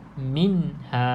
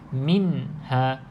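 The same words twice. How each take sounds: The two takes are said the same way.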